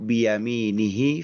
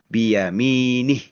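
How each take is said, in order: First: The word ends with a final vowel sound. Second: The word ends on a consonant, vowel dropped. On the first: The reading continues into the next word. "secara bersambung" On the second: The reading stops at this word. "kalau diwakaf di situ"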